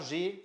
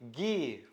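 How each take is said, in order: First: The letter name has a French pronunciation. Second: The letter name has a German pronunciation. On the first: The speaker calls it wrong. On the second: The speaker calls it right.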